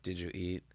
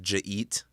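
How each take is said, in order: First: Each of the three words is said separately. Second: The words are run together into two syllables.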